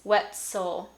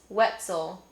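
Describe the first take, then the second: First: The middle consonant is a voiceless s. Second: The middle consonant is a partly devoiced z. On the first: "I also didn't say s" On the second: "probably describes how I say my last name"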